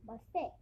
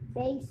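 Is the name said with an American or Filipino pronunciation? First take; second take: Filipino; American. First: The name is said with a Filipino pronunciation. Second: The name is said with an American pronunciation. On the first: The speaker calls it right. "it's actually pronounced in the Filipino term language" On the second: The speaker calls it wrong. "some Americans might say this wrong"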